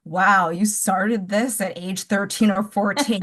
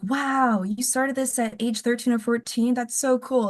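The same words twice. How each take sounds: First: Slow, dry sarcastic wow; fake-impressed, dripping with sarcasm; sarcastic mock awe. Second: Higher, bright admiring fan gushing; impressed gushing. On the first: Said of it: "people who hated the book will be like". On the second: Retold or imitated. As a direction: gush like an impressed reader. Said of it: "people who I think liked the book will be like".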